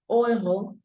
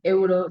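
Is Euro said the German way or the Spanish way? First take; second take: German; Spanish. First: It starts with a German-style vowel sound. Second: It starts with a Spanish-style vowel sound. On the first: The speaker calls it right. "dicen ... Euro" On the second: The speaker calls it wrong. "no dicen euro"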